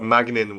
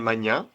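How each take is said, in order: First: The name is said with an English pronunciation. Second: The name is said with a French pronunciation. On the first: "would be an English way of saying it" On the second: "That's how we say it in a French way"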